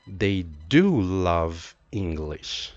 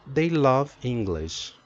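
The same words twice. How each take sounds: First: Emphatic "do", unhurried delivery; emphasis on DO. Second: Said in the usual way. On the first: Shown as a demonstration. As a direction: lean hard on "do", drawing it out. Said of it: "letter E stands for emphasis". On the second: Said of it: "With no auxiliary, you have".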